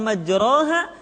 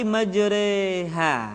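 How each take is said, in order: First: The vowel after r sounds like a. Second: The vowel after r leans toward e. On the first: The speaker calls it wrong. "bunyinya bukan majraha" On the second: The speaker calls it right. "tetapi majreha"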